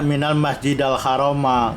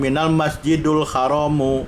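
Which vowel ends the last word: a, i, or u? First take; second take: a; u. First: The words end with an a vowel. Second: The words end with a u vowel. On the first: "nggak ada" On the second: "Kalau baca minal masjidul haramu salah"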